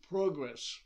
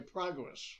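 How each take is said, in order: First: The word is said with an Irish pronunciation. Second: The word is said with an American pronunciation. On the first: This is the speaker's own way of saying it. "I would say progress" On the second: This is how a friend said it. "he would say progress"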